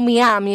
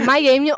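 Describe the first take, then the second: First: The name is said the Spanish way. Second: The name is said the English way.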